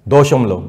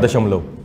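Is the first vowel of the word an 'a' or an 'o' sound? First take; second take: o; a. First: The first vowel is a rounded 'o' sound. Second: The first vowel is an open 'a' sound.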